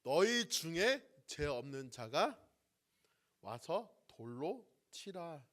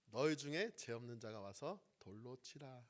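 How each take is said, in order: First: Slow, louder and stern, each word set down; slow, resolute pronouncement of Jesus to the accusers; firm command. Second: Said in the usual way. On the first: Acted. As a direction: deliver it as an unbending verdict. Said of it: "단호하게 말씀하시죠". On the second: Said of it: "이렇게 말씀하시는 것을 보게 됩니다".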